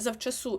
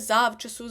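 First: The stress is on the last syllable. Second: The stress is on the first syllable. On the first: The speaker calls it right. "матиме наголос на останньому складі" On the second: The speaker calls it wrong. "Бо хочеться сказати завчасу"

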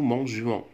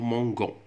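First: The g is said softly, like the s in measure. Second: The g is said hard, like the g in go. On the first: The speaker calls it right. "باه نحافظو على النطق الجي" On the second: The speaker calls it wrong. "كون نديرو مباشرة او ان اس راح نطقوها مونغون"

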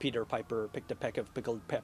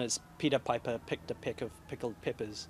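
First: It is said in an American accent. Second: It is said in a New Zealand accent.

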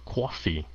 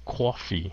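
First: It is said in a New York accent. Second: It is said in a New York accent.

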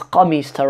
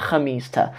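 First: The word begins with a deep q sound. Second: The word begins with a raspy kh sound. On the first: "here it has a qaf, the letter qaf sound" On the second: "rather than"

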